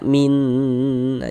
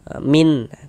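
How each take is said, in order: First: The final n is drawn out and nasal. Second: The final n is clear and short. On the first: The speaker calls it wrong. "jangan dibaca min" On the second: The speaker calls it right. "bunyi nun sukun kita baca jelas"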